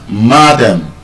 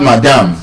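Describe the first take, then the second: First: Madam as MA-dum; first-syllable stress. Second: Madam as ma-DAM; wrong second-syllable stress. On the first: Teacher repeating the correction, madam stressed on MA. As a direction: hit MA in madam, reduce the ending. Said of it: "It should be stressed on the first syllable". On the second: Teacher repeating the error, madam stressed late. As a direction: put the weight on -dam in madam. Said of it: "not madam". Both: Shown as a demonstration.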